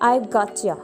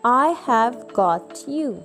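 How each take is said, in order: First: The words are shortened and run together. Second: Every word is said fully and separately. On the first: "you may use a contraction" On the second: "Instead of saying I have got you"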